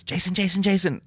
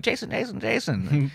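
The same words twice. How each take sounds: First: High, loud call across the street; calling out a name. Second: Put-on high sing-song Irish accent call. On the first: Retold or imitated. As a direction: call his name eagerly from afar. Mother-in-law calling him out. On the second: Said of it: "with this Irish accent".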